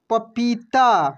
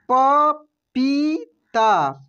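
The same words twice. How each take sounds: First: Said in the usual way. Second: पपीता drawn out very slowly, each syllable separate. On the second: Shown as a demonstration. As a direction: sound out पपीता slowly for learners. (पपीता को धीरे धीरे अक्षर अक्षर बोलिए) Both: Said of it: "कैसे पढ़ेंगे हम लोग?".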